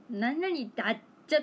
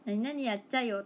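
First: 何々だっちゃ with the Lum-style だっちゃ ending locals never use; wrong dialect ending. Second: 何々やっちゃよ with the real Toyama やっちゃ ending; right dialect ending. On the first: Correcting outsiders, 何々だっちゃ said the wrong Lum-style way. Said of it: "ラムちゃんみたいな言い方しないです". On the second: Correcting outsiders, 何々やっちゃよ said the real Toyama way. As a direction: say 何々やっちゃよ the way locals do. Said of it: "とは言う". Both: Shown as a demonstration.

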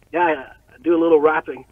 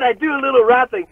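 First: Quick, lightly voiced nerd at normal pitch; underplay the nervous nerd's reply; understated nerd. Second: High, louder mock-dweeb voice; hammed-up dweeb. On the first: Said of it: "like, total nerd. I, I was like". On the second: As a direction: exaggerate your own nerdy reply, pitched up. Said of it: "like a fucking dweeb".

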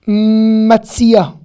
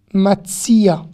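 First: "Matzia" with a long m and firm ts; "Matzia" drawn out at the start, t into s; TS demonstration. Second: "Matzia" said carefully with ts; "Matzia" as a careful model word; TS demonstration. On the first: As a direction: model "Matzia", louder, lingering on the first sound. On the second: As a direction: repeat "Matzia" more briefly, t straight into s. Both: Shown as a demonstration. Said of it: "c'est un T et un S consécutif".

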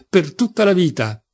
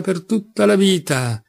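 First: Understated tearful cry, pitched higher; voice breaking with sobs. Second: Slow, higher-pitched mock echo; amused mocking. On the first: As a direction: end higher, with a hint of sobs. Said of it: "con la voce rotta dai singhiozzi". (voce appena rotta dal pianto) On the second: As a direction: draw it out in mocking imitation. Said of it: "borbottò Rakitin ridendo". (eco beffarda, lenta e acuta) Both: A narrator's reading.

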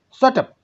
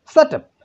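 First: A sharp, high shout, held back a bit; the kidnapper yells to silence them, first try. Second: A much higher, louder shout at full force. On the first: Teacher reads the kidnapper's line aloud, mock shout. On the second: Teacher rereads the kidnapper's line with a real shout. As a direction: bark it out as the kidnapper would. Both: Shown as a demonstration. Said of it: "shouted the kidnapper".

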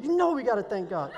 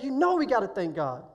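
First: Laughing, lightly hammed-up street-style dad; mock ghetto dad. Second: Said in the usual way. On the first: Dad urges his son to thank God, light mock ghetto voice. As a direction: play the dad getting excited and ghetto, with a laugh. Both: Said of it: "He gets, like, really ghetto".

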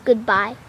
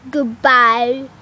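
First: Said in the usual way. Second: Amateur British accent, a bit louder; put-on British "Goodbye". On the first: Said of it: "how do you say". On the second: Shown as a demonstration. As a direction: try saying "Goodbye" in British. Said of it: "how do you say, like, goodbye?".

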